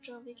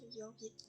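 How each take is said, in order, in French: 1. Le nom commence par un son J doux. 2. Le nom commence par un son Y. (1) "j'ai tendance à dire Jorvik" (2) "on devrait dire Jorvik"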